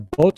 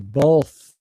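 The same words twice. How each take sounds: First: The word ends with a T sound. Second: The word ends with a voiceless TH sound. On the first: The speaker calls it wrong. "a lot of people aren't comfortable with with the tongue under the teeth. So they say" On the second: The speaker calls it right. "It's got to be both"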